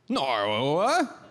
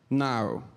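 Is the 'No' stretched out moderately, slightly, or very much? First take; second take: very much; slightly. First: An extremely British 'No' with the most syllables. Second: A plain British 'No' with few syllables.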